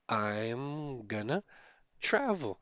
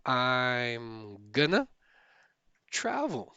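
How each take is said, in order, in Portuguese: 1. "Going to" é reduzido e se funde em "gonna". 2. "Going to" é reduzido e se funde em "gonna".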